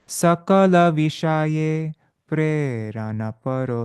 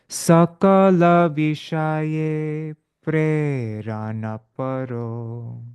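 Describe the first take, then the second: First: The phrase is said at a quicker pace. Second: The phrase is said at a slower pace.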